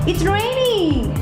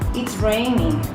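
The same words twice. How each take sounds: First: The tone sounds surprised. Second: The tone sounds annoyed. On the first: The speaker did not expect the rain. "in the first one it means what a surprise" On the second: The speaker finds the rain a nuisance. "in the second one it's kind of how annoying or that's great"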